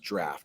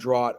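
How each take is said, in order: First: The word sounds like 'draft'. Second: The word does not sound like 'draft'. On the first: The speaker calls it right. "that's actually pronounced draft" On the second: The speaker calls it wrong. "I think I pronounced that the wrong way the first time"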